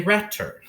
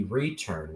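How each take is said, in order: First: "return" with a short e, as in "ret"; the mistaken short-e "return"; wrong short e. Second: "return" with a long e, as in "ree"; the correct long-e "return". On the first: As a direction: say "return" wrongly, first vowel short like "red". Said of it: "we wouldn't say return". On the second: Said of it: "return with a long E". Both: Shown as a demonstration.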